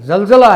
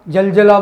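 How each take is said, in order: First: The first consonant has the nuqta sound. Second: The first consonant is plain, without nuqta. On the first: The speaker calls it right. "जलजला है ये" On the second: The speaker calls it wrong. "जलजला बोलेगा कोई, तो जलजला ठीक नहीं है"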